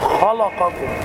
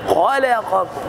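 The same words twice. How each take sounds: First: The l sound is heavy and thick. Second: The l sound is exaggeratedly thin. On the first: "الخطأ في الكلمة أن تفخم اللام" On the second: "أن تبالغ في ترقيق اللام مبالغة في التصحيح"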